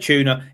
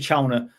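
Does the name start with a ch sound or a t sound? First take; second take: t sound; ch sound. First: The name starts with a t sound. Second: The name starts with a ch sound. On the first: The casual version the hosts always use. The speaker calls it wrong. "we've just said tuna" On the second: The proper version of the name. The speaker calls it right. "it's quite obviously Chowner"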